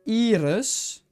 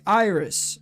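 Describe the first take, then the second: First: The name is said the Dutch way. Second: The name is said the English way. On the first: "In Dutch, you would say iris" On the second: "In English, you would say iris"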